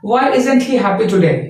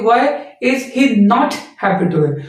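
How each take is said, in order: First: 'Not' is contracted and the sentence is quick. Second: 'Not' is a separate, forceful word, taking longer. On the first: "आपने देखा कितनी जल्दी मैंने sentence को deliver कर दिया" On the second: "नॉट के लिए क्या है, एक्स्ट्रा फोर्स और एक्स्ट्रा जो क्या है स्पेस लेना पड़ रहा था"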